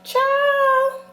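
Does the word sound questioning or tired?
questioning. It is said with a rising, questioning tune. The speaker is asking something. "That's like a question"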